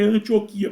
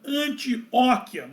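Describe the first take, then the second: First: The stress is on the penultimate syllable, qui. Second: The stress is on the antepenultimate syllable, o. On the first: The speaker calls it right. "o correto é Antioquia, porque a palavra não é proparoxítona, ela é paroxítona" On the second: The speaker calls it wrong. "algumas pessoas falam Antioquia"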